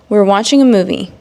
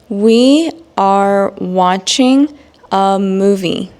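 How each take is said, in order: First: It is spoken at normal pace, contracted. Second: It is spoken slowly with full words. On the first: "then I will provide the normal speed" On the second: "examples again in slow English"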